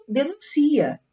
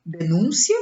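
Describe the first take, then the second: First: "denuncia" stressed on "ci", de-nun-CI-a; verb stress. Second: "Denúncia" stressed on "nún", de-NÚN-cia; noun stress. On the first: Teacher reading the verb: "denuncia" stressed on "ci". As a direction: lean on "ci" in "denuncia". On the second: Teacher reading the noun: "Denúncia" stressed on "nún". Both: Shown as a demonstration. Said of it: "Se eu retirar o acento".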